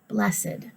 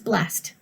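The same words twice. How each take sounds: First: The ending is an extra syllable. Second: The ending is a plain T sound. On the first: It is used as an adjective. "When it's used as an adjective, you pronounce the ed in the word" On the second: It is used as a verb. "A verb is blessed. He's blessed. T sound"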